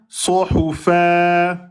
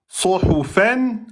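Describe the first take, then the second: First: The word ends with a long vowel, no n. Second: The word ends with a short vowel plus n. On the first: The reader stops on this word. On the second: The reader continues without stopping.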